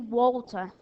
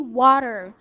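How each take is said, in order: First: It is said with a British accent. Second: It is said with an American accent. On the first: "but if I live in British, I can say water" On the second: "if I live in America, I can say water"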